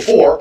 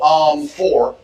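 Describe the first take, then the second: First: It is said confidently, with no filler. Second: It is said hesitantly, with a filler first.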